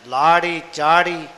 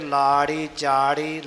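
First: The words are pronounced with a hard, forceful articulation. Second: The words are pronounced with a soft, light articulation. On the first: The speaker calls it wrong. "ਇਸ ਤਰ੍ਹਾਂ ਨਹੀਂ ਕਰਨਾ" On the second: The speaker calls it right. "ਇਹ ਦੋਨੇ ਹੀ ਪੋਲੇ ਪਾਠ ਕਰ"

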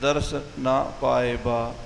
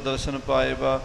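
First: Daras and na are said as separate words. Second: Daras and na are run together as one word. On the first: They did not obtain the sight. The speaker calls it right. "ਪਰ ਇੱਥੇ ਦਰਸ ਨਾ ਪਾਏ ਬਾ ਇਹ ਖਿਆਲ ਰੱਖਣਾ" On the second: They obtained the sight. The speaker calls it wrong. "ਦਰਸ਼ਨ ਇਕੱਠਾ ਨਹੀਂ ਪੜ੍ਹ ਜਾਣਾ ... ਫਿਰ ਤਾਂ ਅਨਰਥ ਹੋ ਜਾਏਗਾ"

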